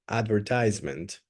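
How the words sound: It is pronounced in an American way. "you can pronounce it in the American way"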